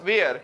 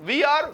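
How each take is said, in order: First: The words are joined into one short syllable. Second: Both words are said fully and separately. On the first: "subject और is M R को मिला के" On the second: "subject और is M R को मिला के"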